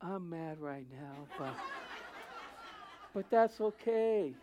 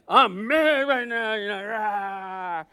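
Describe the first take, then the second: First: Soft, slow, half-laughing calm; a gentle laughing "I'm mad right now"; meek person laughing off their anger; meek mock anger. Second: Loud, slow mock roar; hammed-up lion's roar of anger. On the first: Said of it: "Very humbling, even when they were mad". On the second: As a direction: pound it out like a lion. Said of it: "pounds like a lion".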